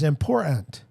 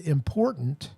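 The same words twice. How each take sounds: First: The word is said in a Cockney-like way. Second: The word is said in a standard way.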